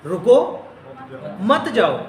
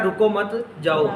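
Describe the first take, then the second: First: رکو alone with a rising end, long pause, then مت جاؤ; pause after رکو. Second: رکو مت joined, short break, then جاؤ; group it as "رکو مت / جاؤ"; pause after مت. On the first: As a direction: break after رکو, keep مت جاؤ together. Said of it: "اس میں کہا یہ جا رہا تھا". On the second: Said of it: "سمجھا کہ کہا جا رہا ہے". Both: Shown as a demonstration.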